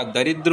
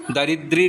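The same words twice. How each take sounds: First: दरिद्र ending in a brief "dr"; correct ending. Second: दरिद्री ending in a long "ee"; wrong ending. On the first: Teacher giving the correction, दरिद्र with short "dr" ending. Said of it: "दरिद्र होता है". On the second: Teacher showing the mistake, दरिद्री with final "ee". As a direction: finish दरिद्री on "dree". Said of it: "दरिद्री नहीं होता". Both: Shown as a demonstration.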